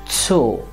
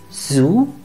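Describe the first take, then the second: First: The vowel is a long o sound. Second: The vowel is a long oo sound. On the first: "in German we'll call it Zoo. Once again" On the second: "this word in English is Zoo"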